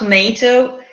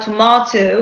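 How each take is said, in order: First: The stressed vowel has a non-British value. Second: The stressed vowel has the British value. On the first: The speaker calls it wrong. "et pas tomato" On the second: The speaker calls it right. "en anglais britannique, on aura tomato"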